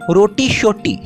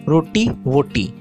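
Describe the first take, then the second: First: The echo word begins with an sh sound. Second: The echo word begins with a v sound. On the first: This is the Kashmiri Urdu form. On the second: This is the standard Urdu form.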